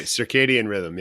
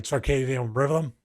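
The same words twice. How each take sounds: First: Circadian rhythm said clearly, sir-KAY-dee-un RITH-um; correct pronunciation. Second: Circadian rhythm slurred as tsarkaythem rivvum; mispronounced circadian rhythm. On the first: Shown as a demonstration. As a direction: give circadian rhythm its full standard sounds, laughing a little. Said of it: "Did I get that right?". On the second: Real, not acted. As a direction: say circadian rhythm with a Philly accent, loose and mumbled. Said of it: "my Philly accent".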